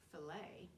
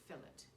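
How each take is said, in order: First: The final t is silent. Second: The final t is pronounced firmly. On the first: This is the American way. "the T, which is silent in America" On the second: This is the British way. "is pronounced firmly in Britain"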